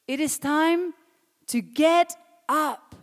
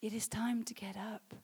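First: High, loud, each word hammered out; forceful preacher's cry, drawn out at the end; emphatic shout. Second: Subdued, earnest preaching; hushed exhortation. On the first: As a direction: shout it slowly to rouse the congregation. Shouted exhortation, later repeated softly. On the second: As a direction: say it quietly, letting it sink in. Same exhortation repeated softly after shouting. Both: Real, not acted.

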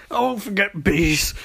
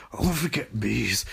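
First: Higher, strained cry; mock distress. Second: Soft, sunken repeat; subdued mock distress. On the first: Barry just revived after bees, high mock distress. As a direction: say it high and shaken up. Barry recovering, first take. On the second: Barry just revived after bees, quietly subdued. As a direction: let it drop to a weak murmur.

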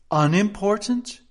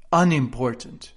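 First: "unimportant" high and loud, rising like a question; trying the word. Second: "unimportant" louder, not raised, as an answer; trying the word. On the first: King comparing words to himself, "unimportant" rising questioningly. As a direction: query "unimportant" with a lift at the end. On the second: King comparing words to himself, "unimportant" firmly weighed. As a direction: weigh "unimportant" as a firm alternative. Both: A narrator's reading. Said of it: "trying which word sounded best".

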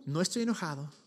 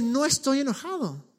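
First: Soft, low and tender; tender reassurance. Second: A higher, firm insistence on No; emphatic denial. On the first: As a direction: quietly reassure the frightened man. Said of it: "lo que hace Jesús en este momento es decirle". (suave y tierno, en voz baja) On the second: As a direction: lean hard on "No" to make it certain. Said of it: "cómo Jesús le habla esto y le dice". ("No" enfático y más agudo) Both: Retold or imitated.

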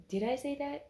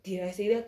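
First: Said aloud, stunned. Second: Said in the usual way. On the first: Retold or imitated. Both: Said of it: "In my head, I was like".

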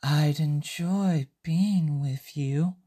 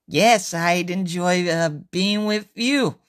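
First: Very slow, drawn out, rising on "being"; slow misheard line. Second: Slow, with a hesitant "uh" before "being with you."; slow, halting reply. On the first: Usuke hearing the teller's words slowly. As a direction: stretch "I'd enjoy being with you." slowly like a dreamy mishearing. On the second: Usuke answering slowly and shyly. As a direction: drag "Yes, I'd enjoy, uh, being with you." haltingly. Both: Acted. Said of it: "This is what Usuke heard".

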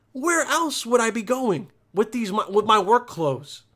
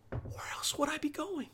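First: Full-voiced incredulous comeback; exasperated retort. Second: Very soft, high, whispery retort; hushed retort. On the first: Acted retort to mom, repeated aloud. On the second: Acted. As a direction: answer mom under your breath, incredulous. Acted retort to mom, first take.

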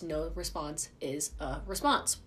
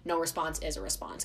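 First: "No response is a response" spaced out slowly; slow emphatic repeat. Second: Said in the usual way. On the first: Real, not acted. Vlogger driving her point home to listeners, slow and deliberate. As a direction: land each word of "No response is a response" separately.

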